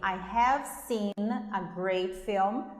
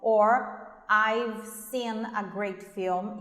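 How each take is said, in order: First: The words 'I have' are said in full. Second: The words 'I have' are contracted to 'I've'.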